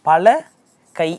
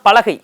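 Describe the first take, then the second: First: It is said with a break in the middle. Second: It is said as one word without a break. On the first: Many hands. "பிரிச்சு வாசிச்சோம் அப்படின்னா" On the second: A wooden plank. "சேர்த்து வாசிச்சோம்னா"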